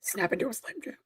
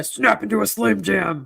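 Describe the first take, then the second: First: Whispered monster voice. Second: Slow, hammy ad slogan; Slim Jim ad voice. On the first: Acted. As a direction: hiss it like a creature lurking. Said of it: "monster voice come from me". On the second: Retold or imitated. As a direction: deliver it like the commercial catchphrase.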